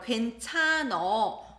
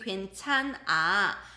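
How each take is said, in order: First: The word ends with an 'uh' vowel. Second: The word ends with an 'ah' vowel. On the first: This is casual Seoul dialect speech. The speaker calls it wrong. "which is a wrong conjugation" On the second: This is the standard form. The speaker calls it right. "It should be"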